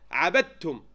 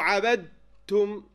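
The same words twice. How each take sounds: First: عبدتم said as one merged word, dal straight into ta; quick, joined-up عبدتم; no pause in عبدتم. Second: عبدتم split by a long pause before the final تم; عبدتم drawn out in two separate parts; pause inside عبدتم. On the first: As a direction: run عبدتم together without a break. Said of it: "without pausing this long, of course". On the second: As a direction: stop long after the dal in عبدتم. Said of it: "without pausing this long". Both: Shown as a demonstration.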